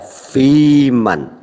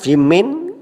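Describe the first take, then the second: First: The last syllable has an 'a' vowel. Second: The last syllable has an 'i' vowel. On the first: The speaker calls it right. "tetap dibaca fiman" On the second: The speaker calls it wrong. "tidak dibaca"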